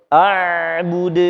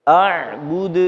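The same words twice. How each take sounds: No difference in how they are said.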